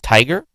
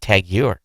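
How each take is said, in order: First: The name sounds like the single word 'tiger'. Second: The name is said as two separate words. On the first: The speaker calls it right. "It's Tiger" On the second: The speaker calls it wrong. "I thought it was Tag Heuer"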